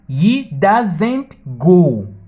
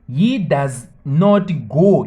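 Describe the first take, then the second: First: Does and not are joined into one short word. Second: Does and not are said as two full words. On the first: "you can just say" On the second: "instead to say"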